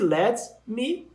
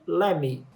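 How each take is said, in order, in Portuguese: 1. As duas palavras são ditas completas e separadas. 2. As palavras se juntam em "lemme". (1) "Esse let me" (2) "pode ser dito como"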